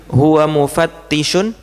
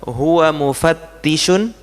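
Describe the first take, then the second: The two takes are said the same way.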